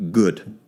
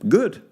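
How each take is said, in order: First: Said in the usual way. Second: Good jumps much higher and rises; emphatic high good. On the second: Real, not acted. To the anxious listener, a pointed high Good. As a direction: throw Good up high as a challenge.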